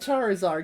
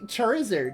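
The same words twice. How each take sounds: First: The ending does not sound like lizard. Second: The ending sounds like the word lizard. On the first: The speaker calls it wrong. "not Charizard" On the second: The speaker calls it right. "it should be Charizard, because it's lizard"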